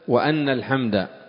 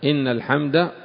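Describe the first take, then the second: First: The first word begins with the vowel a. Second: The first word begins with the vowel i. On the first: It is read as a clause giving a reason. The speaker calls it wrong. "وفتحها" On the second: It starts a new, separate sentence of praise. The speaker calls it right. "بكسر الهمزة"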